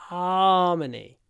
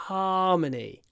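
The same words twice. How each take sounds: Both takes have the same delivery.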